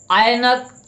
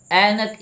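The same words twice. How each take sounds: First: ऐनक split as "aa-ye-nak", high and loud; mispronounced ऐनक. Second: ऐनक with one open "ai" vowel; single clean vowel opening ऐनक; corrected pronunciation. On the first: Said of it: "ऐनक नहीं". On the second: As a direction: say ऐनक as "AI-nak" in two syllables. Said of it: "इस प्रकार से लिखना है". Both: Shown as a demonstration.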